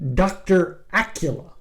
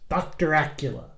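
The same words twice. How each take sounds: First: The name is said at normal speed. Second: The name is said very fast.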